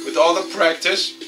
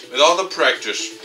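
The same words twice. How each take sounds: The two takes are said the same way.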